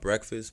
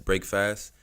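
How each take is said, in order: First: It is said as the ordinary single word. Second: It is said as two separate words. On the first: "It's called Breakfast" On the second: "I pronounce it as Break Fast"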